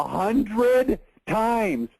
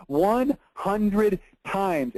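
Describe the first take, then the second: First: Said in the usual way. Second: "One hundred times" said very slowly, each word weighted; slow emphatic repeat. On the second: Shown as a demonstration. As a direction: drag out "One hundred times" to hammer it home. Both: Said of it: "Are you with me?".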